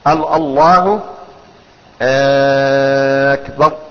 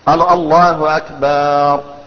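First: The first vowel of Akbar is lengthened. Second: The vowel after B in Akbar is lengthened. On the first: It turns the phrase into a question. "أو همزة أكبر" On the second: The word comes to mean a drum. "أو قال أكبر ... أكبر معناه الطبل"

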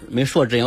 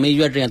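First: The second syllable is pronounced shuo. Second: The second syllable is pronounced yue. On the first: The speaker calls it right. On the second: The speaker calls it wrong.

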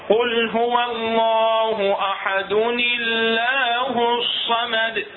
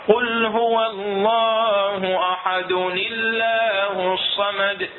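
No difference in how they are said.

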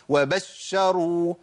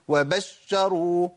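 Both takes have the same delivery.

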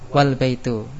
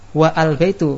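First: The vowel of al is dropped and joined. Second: The vowel of al is pronounced separately. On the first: The speaker calls it right. "tapi bacanya apa? Wal baitu" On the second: The speaker calls it wrong. "Kalau wa al baitu salah"

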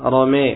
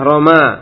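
First: The final vowel is tilted toward 'e'. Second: The final vowel is a plain open 'a'. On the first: "dibaca rome boleh" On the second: "adalah roma"

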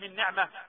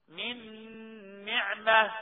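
First: The nasal n sound is cut short. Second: The nasal n sound is held for two beats. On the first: The speaker calls it wrong. "ما ينفعش نقول من نعمه" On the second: The speaker calls it right. "حركتين"

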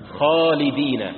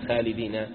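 First: The long vowel after the first letter sounds heavy. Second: The long vowel after the first letter sounds light. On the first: The speaker calls it right. "الأحرف المفخمة الألف بعدها مفخمة" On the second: The speaker calls it wrong. "لا تقول خالدين"

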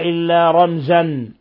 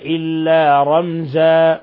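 First: The last word ends with a short vowel plus n. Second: The last word ends with a long a vowel. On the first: The speaker calls it wrong. "فلا نقف عليها" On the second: The speaker calls it right. "وإنما إلا رمزا"

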